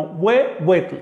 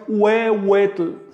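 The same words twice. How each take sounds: First: Huehuetl with a firm consonant w, slow. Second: Huehuetl with an open vowel-like u, slow. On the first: Teacher demonstrating the right consonantal huehuetl. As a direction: make the w in huehuetl a true consonant. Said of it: "se pronuncia de manera consonante". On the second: Teacher demonstrating the wrong vocalic huehuetl. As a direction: say huehuetl as u-e, slowly. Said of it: "no de manera vocálica". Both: Shown as a demonstration.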